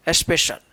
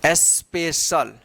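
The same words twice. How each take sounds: First: Said in the usual way. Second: special slow and lower, split into its syllables. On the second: Shown as a demonstration. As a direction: sound out special part by part. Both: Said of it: "क्या पढ़ेंगे".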